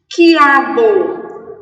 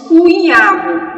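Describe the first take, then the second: First: The u is silent, giving a plain k start. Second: The u is sounded, giving a kw start. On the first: The speaker calls it right. "o U não foi pronunciado" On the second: The speaker calls it wrong. "não disse cuiabo"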